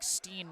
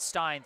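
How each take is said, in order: First: The name has an 'ee' vowel. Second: The name has an 'eye' vowel. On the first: The speaker calls it right. "slight correction on my pronunciation. It's [name]" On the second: The speaker calls it wrong. "not Stein"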